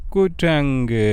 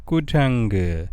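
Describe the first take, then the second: First: குரங்கு a little raised and stretched; loud for repeating. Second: Said in the usual way. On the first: Shown as a demonstration. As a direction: lead children in a clear, lifted குரங்கு. (சற்று உயர்த்தி சத்தமாக சொல்லும் குரங்கு) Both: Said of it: "சத்தமா சொல்லுங்கோ".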